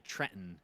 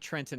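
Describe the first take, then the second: First: Trenton is said in the local Trenton accent. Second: Trenton is said in a neutral, non-local way. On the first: "that's how people in Trenton say Trenton" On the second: "I say Trenton now"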